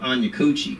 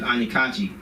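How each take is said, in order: First: The surname's first vowel sounds like 'oo'. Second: The surname's first vowel sounds like 'ah'. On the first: This is how someone mispronounced the name. The speaker calls it wrong. "decides to pronounce my name" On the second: This is the name's real pronunciation. The speaker calls it right. "my name's"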